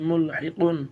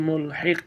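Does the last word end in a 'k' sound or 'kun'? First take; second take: kun; k. First: The word ends with a 'kun' sound. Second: The word ends on a bare 'k' sound.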